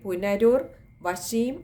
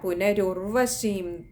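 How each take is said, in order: First: It is split into two parts with a break. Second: It is said joined without any break. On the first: The speaker calls it wrong. "പുനരുർ വശീം ആയി പോകും. അങ്ങനെയല്ല" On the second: The speaker calls it right. "പുനഃ ഉർവശീമാണ്"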